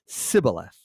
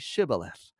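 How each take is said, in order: First: The word begins with an s sound. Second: The word begins with an sh sound. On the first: The speaker is an Ephraimite. The speaker calls it wrong. "They said Sibboleth" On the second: The speaker is a Gileadite. The speaker calls it right. "the sh, sh"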